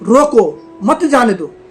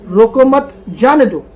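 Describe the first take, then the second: First: The pause comes after 'रोको'. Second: The pause comes after 'मत'.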